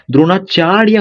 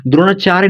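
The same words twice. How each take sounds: First: द्रोणाचार्य ending in chaar-ya; full ending -rya on द्रोणाचार्य; corrected द्रोणाचार्य. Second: द्रोणाचार्य ending in a loose chaa-re; beginner's reading of द्रोणाचार्य, ending -re; misread द्रोणाचार्य. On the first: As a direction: sound the final ya of द्रोणाचार्य clearly. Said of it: "द्रोणाचार्य होता है". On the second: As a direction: say द्रोणाचार्य as dro-naa-chaa-re. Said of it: "द्रोणाचार्य नहीं होता है". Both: Shown as a demonstration.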